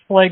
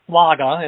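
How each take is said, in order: First: It is said with a plain English pronunciation. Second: It is said with a German pronunciation.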